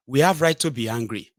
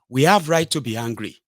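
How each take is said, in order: Both takes have the same delivery.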